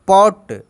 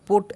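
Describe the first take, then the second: First: The vowel is an open 'aw' sound. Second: The vowel is a closed 'oh' sound. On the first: The speaker calls it right. "पॉट डॉट लॉग" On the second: The speaker calls it wrong. "डोट पोट ऐसे नहीं"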